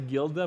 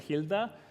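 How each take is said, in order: First: The word begins with a hard G sound. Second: The word begins with a breathy H sound. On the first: The speaker calls it wrong. "something I was mispronouncing as a gilda" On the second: The speaker calls it right. "but it's a hilda"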